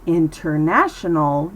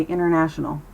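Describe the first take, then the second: First: "international" with a crisp, full T; overpronounced T. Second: "international" with no first T, like "innernational"; dropped T. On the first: Teacher shows what to avoid, hard T in "international". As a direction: sound out the first T in "international". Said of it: "Instead of saying". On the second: Teacher models American speech, "international" without its T. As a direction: let the N swallow the T in "international". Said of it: "it keeps its voice down". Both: Shown as a demonstration.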